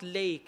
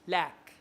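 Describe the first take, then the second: First: The vowel is a long 'ay' sound. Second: The vowel is a short 'a' sound. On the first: The speaker calls it wrong. "some people read it as lake. It's not lake" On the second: The speaker calls it right. "it's lack"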